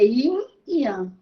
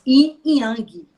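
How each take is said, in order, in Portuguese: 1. Não se ouve som de g depois de yang. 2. Um som de g forte termina a palavra yang. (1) "esse ge não se pronuncia" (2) "algumas pessoas pronunciam o ge"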